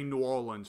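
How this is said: It is said in a Louisiana accent. "with their accent, whenever they refer to the city of New Orleans, they tend to call it New Orleans"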